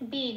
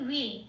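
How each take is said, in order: First: The syllable begins with a b sound. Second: The syllable begins with a w sound. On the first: The speaker calls it wrong. "বে নয়" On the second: The speaker calls it right. "উচ্চারণটা হবে ওয়ে"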